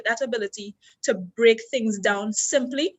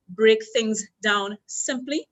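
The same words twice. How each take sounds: First: Said in the usual way. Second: Slow, deliberate, every word weighed; slow emphatic repeat. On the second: Shown as a demonstration. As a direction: spell the point out slowly for the class. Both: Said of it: "That's the first point".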